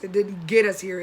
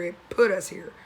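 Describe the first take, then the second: First: Said in the usual way. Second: "put" stressed and falling. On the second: Shown as a demonstration. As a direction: lean hard on "put".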